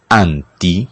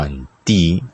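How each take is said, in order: First: It is said with a Spanish pronunciation. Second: It is said with a Greek pronunciation.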